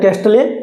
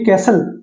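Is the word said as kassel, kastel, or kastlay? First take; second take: kastlay; kassel. First: It is said with a sounded t, as kastlay. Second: It is said with a silent t, as kassel. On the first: The speaker calls it wrong. "कास्टल या कैस्टले नहीं होता" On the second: The speaker calls it right.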